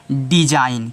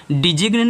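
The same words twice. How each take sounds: First: डिजाइन ending in "-ain", no g; correct silent-G reading. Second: डिजिग्न with a hard g before the n; wrong reading with sounded G. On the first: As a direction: drop the g in डिजाइन. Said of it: "इसको सिर्फ आप पढ़ोगे". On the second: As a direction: pronounce the silent g in डिजिग्न. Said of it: "नहीं पढ़ोगे". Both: Shown as a demonstration.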